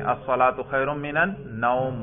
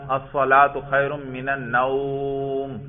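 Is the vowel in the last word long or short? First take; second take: short; long. First: The vowel in the last word is kept short. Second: The vowel in the last word is drawn out long. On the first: The speaker calls it right. "مختصر سا پڑھیں گے" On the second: The speaker calls it wrong. "لمبا کر دیتے ہیں"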